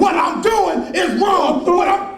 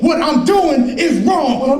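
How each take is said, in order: First: Slow furious shout. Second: Slow insistent demand. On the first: Man yelling at his abusive friend, slow furious shout. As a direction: yell it slowly, word by word. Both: Acted. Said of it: "I say it".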